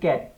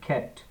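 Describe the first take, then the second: First: The first consonant has no puff of air. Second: The first consonant has a puff of air. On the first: The speaker calls it wrong. "যেমন আমরা বলি ক্যাট" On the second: The speaker calls it right. "খ্যাট হয়ে যাবে"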